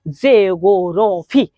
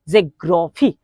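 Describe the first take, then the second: First: The word is said slowly, syllable by syllable. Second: The word is said at normal, connected speed.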